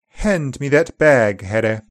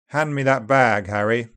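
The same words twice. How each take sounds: First: It is read in upper RP, vowels closer. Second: It is read in General British, vowels opener. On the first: "Quotes are read in upper RP, then in GB. Upper RP is closer" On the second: "then in GB"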